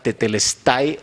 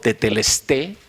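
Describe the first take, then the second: First: The final vowel is said as 'ai'. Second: The final vowel is said as 'e'.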